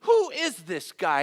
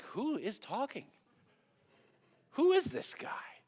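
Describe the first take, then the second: First: Loud, higher, drawn-out demand; acted outrage at an insolent stranger; upset, indignant. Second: High, drawn-out disbelief; incredulous onlookers. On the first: David demanding to know about Goliath, upset and indignant. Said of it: "But David's upset". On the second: Acted. Soldiers overhearing David's bold talk, incredulous. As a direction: imitate baffled bystanders, pitch leaping up. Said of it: "You wonder if people hearing".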